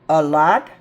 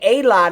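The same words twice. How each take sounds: First: The 'a' is said as a short 'uh'. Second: The 'a' is said as a full 'ay'. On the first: The speaker calls it right. "Schwa A sound" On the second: The speaker calls it wrong. "We don't usually say a lot of candy"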